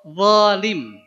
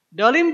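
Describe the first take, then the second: First: The word begins with a z sound. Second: The word begins with a d sound. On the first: The speaker calls it right. "Harusnya za, zalim" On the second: The speaker calls it wrong. "dolim juga nggak sah"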